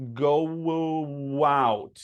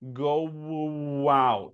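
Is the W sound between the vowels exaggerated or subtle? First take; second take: exaggerated; exaggerated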